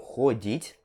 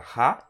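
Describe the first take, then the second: First: The first vowel sounds like O. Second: The first vowel sounds like A. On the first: The speaker calls it wrong. "e não" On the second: The speaker calls it right. "Esse O aqui vai ter som de A, então você pronuncia"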